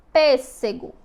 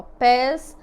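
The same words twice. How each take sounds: First: Said in the usual way. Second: "pêssego" broken into pês, sé, gó with pauses; syllable by syllable. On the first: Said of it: "Vamos agora observar a palavra". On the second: Shown as a demonstration. Teacher counting three mouth openings, "pêssego" split by syllable. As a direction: separate "pêssego" into three loud, distinct beats. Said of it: "quantas vezes eu abri minha boca?".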